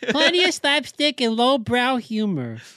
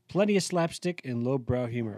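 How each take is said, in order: First: It is read in a toddler's voice. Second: It is read in his normal voice.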